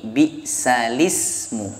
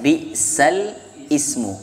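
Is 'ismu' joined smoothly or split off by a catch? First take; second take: joined; split. First: The lam joins straight onto the following vowel. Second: A glottal catch splits off the second word. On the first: The speaker calls it right. "dipindah menjadi lam, maka berbunyi bi'salismu" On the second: The speaker calls it wrong. "bukan dibaca bi'sal ismu, keliru"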